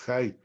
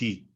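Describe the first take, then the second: First: The vowel sounds like 'eye' after the h. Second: The vowel sounds like 'ee' after the h. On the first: The speaker calls it wrong. "no es jai" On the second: The speaker calls it right. "es hi"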